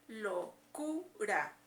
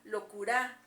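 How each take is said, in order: First: The stress is on the middle syllable. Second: The stress is on the last syllable. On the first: The speaker calls it right. "se escucha en la sílaba del medio" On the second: The speaker calls it wrong. "En la A"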